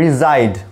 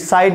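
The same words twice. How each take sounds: First: The middle consonant is a buzzing z sound. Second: The middle consonant is a hissing s sound. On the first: The speaker calls it right. "এস এর উচ্চারণটা আমাদেরকে জয়ের মতো করতে হবে" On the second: The speaker calls it wrong. "এটা রিসাইড না"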